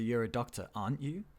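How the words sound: The voice rises at the end of the tag. The speaker is less certain of the information. "we have an up intonation"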